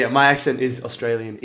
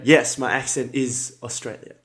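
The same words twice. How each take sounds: First: Said in the usual way. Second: Mock broken English, saying "Australia" where "Australian" belongs; teasing a viewer by saying "Australia" in place of "Australian"; jokey wrong word. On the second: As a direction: answer deadpan with "my accent is Australia" as a tease. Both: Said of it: "No, I'm just joking".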